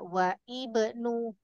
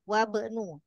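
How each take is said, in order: First: A separate i vowel is pronounced before bnu. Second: The vowel before bnu is dropped and linked. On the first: The speaker calls it wrong. "tidak dibaca wa ibnu" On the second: The speaker calls it right.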